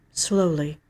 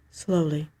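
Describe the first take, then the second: No difference in how they are said.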